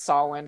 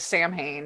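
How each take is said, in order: First: It is pronounced unlike the way it's spelled. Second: It is pronounced the way the spelling suggests. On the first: The speaker calls it right. "but it's Samhain" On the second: The speaker calls it wrong. "the fans tend to pronounce it as Samhain because that's how it's spelled"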